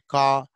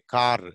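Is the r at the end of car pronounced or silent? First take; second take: silent; pronounced. First: The final r sound is left silent. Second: The final r sound is clearly pronounced. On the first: "but Britishers say car, ra is muted except when it is followed by vowel in British English" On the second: "but Americans say car"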